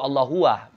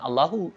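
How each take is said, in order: First: It ends with an added 'wa' sound. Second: It ends cleanly on 'hu' with no 'wa'. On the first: The speaker calls it wrong. "Ada wanya" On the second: The speaker calls it right. "Bukan Allahu"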